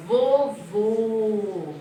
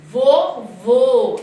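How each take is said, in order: First: "Vovô" with a small closed mouth on the ô. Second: "Vovô" louder, closed small-mouth ô. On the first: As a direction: keep the mouth tiny for "Vovô". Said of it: "minha boquinha fica pequena". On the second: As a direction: round the lips tight on "Vovô". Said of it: "Olha a boquinha da Pro". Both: Shown as a demonstration.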